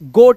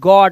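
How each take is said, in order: First: The vowel is a closed 'oh' sound. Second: The vowel is an open 'aw' sound. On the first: The speaker calls it wrong. "गोट नहीं है" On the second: The speaker calls it right.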